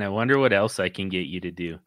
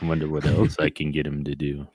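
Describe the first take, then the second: First: It is said in a mildly creepy tone. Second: It is said in an exaggerated, extra creepy tone.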